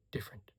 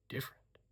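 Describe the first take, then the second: First: Said in the usual way. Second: "different" breathed as a soft whisper; "different" whispered after a plain take; whispered repeat. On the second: A narrator's reading.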